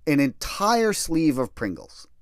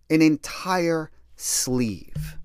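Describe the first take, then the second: First: Said in the usual way. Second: "An entire sleeve" said very slowly, each word spaced out; slow incredulous repeat. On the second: Shown as a demonstration. Repeating the snack detail to the listener, "An entire sleeve" stretched out slowly. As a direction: drag out "An entire sleeve" in disbelief.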